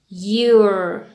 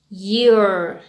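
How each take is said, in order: First: It is said as one contracted syllable. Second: It is said as one contracted syllable.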